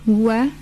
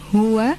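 First: The first sound is weak and w-like. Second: The first sound is a clear throaty h. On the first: The speaker calls it wrong. "the ha shouldn't be confused with a waw" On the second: The speaker calls it right. "crystal clear that it's a ha from the bottom of the throat"

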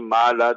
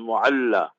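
First: The first vowel is 'a', with a short l. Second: The first vowel is 'u', with a doubled l. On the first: The speaker calls it wrong. "They pronounce it wrong also. They say Ma'ala" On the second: The speaker calls it right. "It's Mu'alla"

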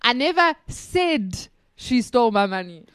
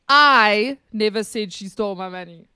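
First: The stress is on "said". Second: The stress is on "I".

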